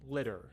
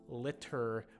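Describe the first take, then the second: First: The middle consonant is a soft D sound. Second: The middle consonant is a clear T sound. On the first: "if I'm talking to someone casually in natural English, I would say" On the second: "so that you can hear, you can hear the T sounds in the middle of them"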